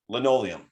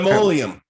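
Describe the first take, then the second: First: The second consonant is an n sound. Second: The second consonant is an m sound. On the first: The speaker calls it right. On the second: The speaker calls it wrong. "you said it wrong"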